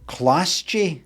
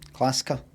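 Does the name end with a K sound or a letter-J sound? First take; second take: letter J; K sound. First: The name ends with the sound of letter J. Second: The name ends with a K sound. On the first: The speaker calls it wrong. "You don't pronounce it that" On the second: The speaker calls it right. "The J's actually a K"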